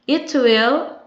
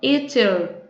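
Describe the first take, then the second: First: Will is said as a full separate word. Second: Will is reduced to a bare L sound.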